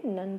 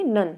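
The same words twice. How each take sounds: First: नन said much softer, dropping away; soft echo of the answer; quiet repeat. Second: नन said out loud and firmly; answer called out. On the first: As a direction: murmur नन back softly. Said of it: "क्या बोलेंगे?". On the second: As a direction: call out नन clearly to the class. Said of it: "इसे हम क्या बोलेंगे?". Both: Shown as a demonstration.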